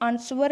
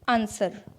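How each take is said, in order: First: A w sound is heard in the word. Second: The w sound is silent in the word. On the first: The speaker calls it wrong. "इसे आंसवर नहीं कहेंगे" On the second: The speaker calls it right. "डब्ल्यू silent रहता है"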